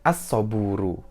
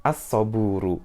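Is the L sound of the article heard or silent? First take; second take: silent; silent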